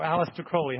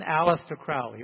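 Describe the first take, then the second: First: Crowley with first syllable rhyming with "go"; alternative pronunciation. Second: Crowley with first syllable rhyming with "cow"; first pronunciation variant. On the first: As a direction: say Crowley with a long O, "KROH-lee". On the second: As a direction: say Crowley as CROW-lee, "crow" like "brow". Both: Shown as a demonstration. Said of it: "however you want to say that".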